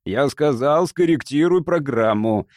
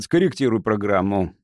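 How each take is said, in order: First: Emphatic, forceful repeated order; cutting insistence. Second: Firm command, falling in pitch; firm order. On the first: Captain overruling Jimmy's protest, curt and insistent. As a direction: cut off all argument firmly. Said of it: "отрезал я". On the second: Captain ordering Jimmy to change programme, firm. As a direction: lay down the order with finality. First order, later repeated emphatically. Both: A narrator's reading.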